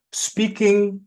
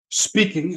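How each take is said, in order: First: Spoken up. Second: Said in the usual way. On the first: Shown as a demonstration. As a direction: lift "speaking" up, projected. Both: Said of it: "generally speaking up".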